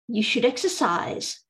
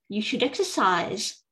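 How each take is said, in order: Both takes have the same delivery.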